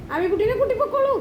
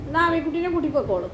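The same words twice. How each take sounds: First: Much higher pet-talk voice; high-pitched coaxing. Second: Coaxing, a little raised in pitch; easy, falling instruction to a pet; gentle coaxing. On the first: Urging Mikku to take Ami along, high coaxing. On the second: Telling Mikku to take Ami along, gently coaxing. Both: Real, not acted.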